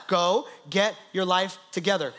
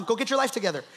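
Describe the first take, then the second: First: Deliberate pauses between "Go", "get", "your life", "together"; word-by-word emphasis. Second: Said in the usual way. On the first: Retold or imitated. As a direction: spell out the order one word at a time. Repeats it slowly, word by word.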